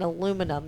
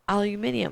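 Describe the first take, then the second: First: The word is said with four syllables. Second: The word is said with five syllables. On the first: This is the American form. "I think you mean aluminum" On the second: This is the British and Australian form. "people in Great Britain and France and Europe and in Australia call it aluminium"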